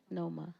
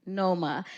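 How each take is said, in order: First: Said in the usual way. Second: Noma said louder as a clear correction; firm correction. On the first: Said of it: "our next poet is Chrissy Numa". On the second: Shown as a demonstration. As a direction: set the name Noma right, firmly.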